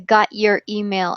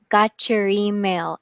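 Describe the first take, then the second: First: The T is reduced, with no ch sound. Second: The T and Y blend into a ch sound. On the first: "we just reduce the T. We don't say the ch" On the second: "they will say it like it's one word"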